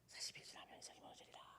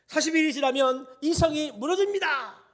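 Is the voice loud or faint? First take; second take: faint; loud. First: It is said in a tiny, faint voice. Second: It is said in a full, clear voice.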